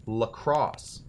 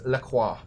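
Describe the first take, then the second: First: "Lacrosse" ending in a sounded S; Wisconsin pronunciation. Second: "La Croix" ending in a kwah sound; French-style La Croix. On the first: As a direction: say "Lacrosse" like the sport, luh-KROSS. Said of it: "That's how the Wisconsin people say it". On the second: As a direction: say "La Croix" as luh-KWAH, no final S. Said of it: "I will always call this La Croix". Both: Shown as a demonstration.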